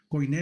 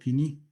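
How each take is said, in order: First: The word is said as koy-nay. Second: The word is said as kee-nee. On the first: This is how many people say it. The speaker calls it wrong. "Koiné le dicen muchos" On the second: This is the real pronunciation. The speaker calls it right. "pero realmente la pronunciación es Kini"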